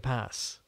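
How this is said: The word is said with an American accent. "certain words that have American inflections"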